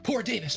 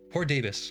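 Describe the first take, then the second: First: It is exclaimed with strong feeling. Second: It is said flatly, without feeling.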